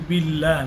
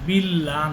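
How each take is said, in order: Both takes have the same delivery.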